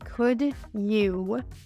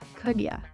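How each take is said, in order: First: Both syllables are pronounced clearly and fully. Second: The word 'you' is reduced to 'ya'. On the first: "instead of saying could you" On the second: "we're not enunciating those syllables when we're speaking naturally"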